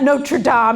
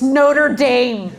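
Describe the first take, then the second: First: The name is pronounced the French way. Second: The name is pronounced the American way. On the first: "It's not Notre Dame" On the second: "In America, we're like, it's Notre Dame"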